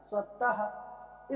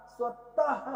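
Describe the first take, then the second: First: स्वतः drawn out very slowly, ending in an audible "ha"; slow visarga demo. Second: Said in the usual way. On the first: Shown as a demonstration. Teacher slowing स्वतः so students hear the final "ha". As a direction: stretch स्वतः and breathe the final "ha". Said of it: "last में हा जैसा sound आ रहा है ना". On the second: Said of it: "last में हा जैसा साउंड".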